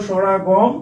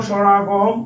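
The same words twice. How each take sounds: Both takes have the same delivery.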